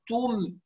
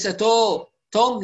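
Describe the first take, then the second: First: "توم" with a pure rounded u, "tuum"; complete u. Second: "توم" with u opened to o, "tom"; slackened u. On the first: Teacher corrects the o vowel, complete u. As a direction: round the lips fully on "توم", softer. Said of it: "ضمة التاء". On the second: Teacher shows what to avoid, slackened u. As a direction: let the vowel of "توم" sag into o. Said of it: "ليس". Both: Shown as a demonstration.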